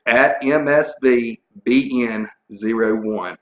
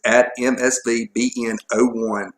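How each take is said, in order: First: Slow, spaced-out spelling of the handle; slower repeat. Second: Too fast. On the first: Co-host repeating the Twitter handle on request, slowly. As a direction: spell out M S V B N zero one slowly for listeners. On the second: Co-host giving out the show's Twitter handle, too fast. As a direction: reel the handle off without pausing. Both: Real, not acted. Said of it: "You said it too fast".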